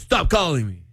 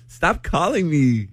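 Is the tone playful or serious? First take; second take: serious; playful. First: It is said in a firm, serious tone. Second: It is said in a playful, teasing tone.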